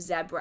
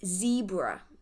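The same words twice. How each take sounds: First: The word is said with the British pronunciation. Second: The word is said with the American pronunciation. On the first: "instead of zebra" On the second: "it's zebra"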